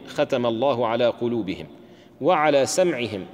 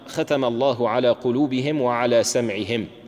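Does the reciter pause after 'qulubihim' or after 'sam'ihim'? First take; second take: qulubihim; sam'ihim. First: The pause comes after 'qulubihim', not 'sam'ihim'. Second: The pause comes after 'sam'ihim', not 'qulubihim'. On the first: The covering lies over both hearing and sight. "أو نقف على قلوبهم" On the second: Hearing is sealed along with the hearts. "إما أن نقرأ ختم الله على قلوبهم وعلى سمعهم، فيكون السمع مما يختم عليه"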